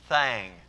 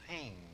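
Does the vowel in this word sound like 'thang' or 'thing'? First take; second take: thang; thing. First: The vowel is open, like in 'thang'. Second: The vowel is close, like in 'thing'. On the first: The speaker calls it wrong. "She said" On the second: The speaker calls it right. "we pronounce it thing"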